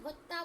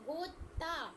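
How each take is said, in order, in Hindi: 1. पहला स्वर छोटी 'u' की ध्वनि है। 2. पहला स्वर 'o' की ध्वनि है। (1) "तुमने भुत्ता बोला था, भा में छुटू की लगा दी थी" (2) "भा में ओ की लगी है"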